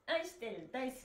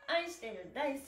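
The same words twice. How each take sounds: The two takes are said the same way.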